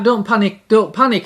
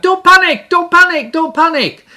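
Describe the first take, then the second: First: Said in the usual way. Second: High, loud panicked shout, fading; Corporal Jones shouting. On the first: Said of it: "he was shouting out". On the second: Retold or imitated. Preacher imitates Corporal Jones yelling in a panic. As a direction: yell it like a flustered old soldier. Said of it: "he'd shout out".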